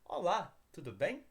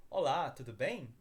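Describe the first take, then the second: First: Careful step-by-step "Olá, tudo bem?" for learners to repeat; slower model. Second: Quick, natural "Olá, tudo bem?" as a Brazilian would say it; natural Brazilian speed. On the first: Teacher models the greeting for students to repeat, slower. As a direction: give "Olá, tudo bem?" slowly and clearly, one word at a time. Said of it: "I'm gonna repeat it here". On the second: Teacher reads the dialogue to learners at native speed. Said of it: "I'm gonna speak a little faster". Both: Shown as a demonstration.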